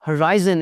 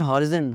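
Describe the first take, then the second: First: The second vowel sounds like eye. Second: The second vowel is a short i. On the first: The speaker calls it right. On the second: The speaker calls it wrong.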